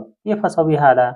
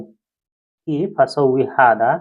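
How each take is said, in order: First: Said in the usual way. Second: "केफ असौवी Hada" said very slowly, word by word; slow Arabic demo. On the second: Shown as a demonstration. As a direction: stretch out "असौवी" with a rising end. (अरबी वाक्य बहुत धीरे-धीरे बोलना)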